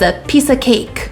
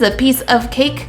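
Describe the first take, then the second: First: The word 'of' is reduced to 'uh'. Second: The word 'of' is pronounced in full. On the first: The speaker calls it right. "a native English speaker would say" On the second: The speaker calls it wrong. "would I say this is a piece of cake? No"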